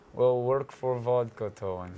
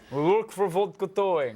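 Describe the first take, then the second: First: It is said in a sleepy, low-energy way. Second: It is said in a lively, high-energy way. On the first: The speaker calls it wrong. "That was my sleepy Russian" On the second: The speaker calls it right. "Be Russian with energy"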